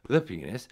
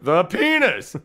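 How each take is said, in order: First: It is said at a normal, quiet volume. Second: It is said really loudly.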